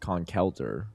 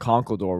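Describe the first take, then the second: First: The last syllable sounds like 'der'. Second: The last syllable sounds like 'door'. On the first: The speaker calls it right. "It's Conkelder, which makes more sense" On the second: The speaker calls it wrong. "I've apparently been pronouncing Conkeldor wrong the whole time"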